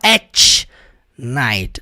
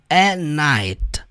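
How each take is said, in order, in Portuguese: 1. O t no final de 'at' é pronunciado. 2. O t no final de 'at' é omitido. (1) "Ele não fala at night" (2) "ele fala at night"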